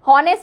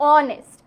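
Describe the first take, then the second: First: The word begins with an h sound. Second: The word begins with a vowel sound. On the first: The speaker calls it wrong. "হ উচ্চারণ হলে সেটা কিন্তু হনেস্ট হতো" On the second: The speaker calls it right. "অনেস্টের ক্ষেত্রেও কিন্তু হ উচ্চারণ হয় না"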